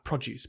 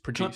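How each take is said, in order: First: The stress is on the first syllable. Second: The stress is on the second syllable. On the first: Fruit and vegetables. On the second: To create something.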